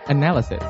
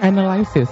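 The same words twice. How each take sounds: First: The word is said the standard English way. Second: The word is said the common local Indonesian way. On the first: The speaker calls it right. "Harusnya analysis" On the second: The speaker calls it wrong. "Selalu ngomongnya analysis gitu kan"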